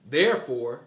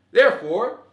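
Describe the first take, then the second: First: Said in the usual way. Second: "Therefore" pushed higher and louder, rising at the end; rising emphasis. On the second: Retold or imitated. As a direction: punch "Therefore" up with a rising tune. Building mock logic chain.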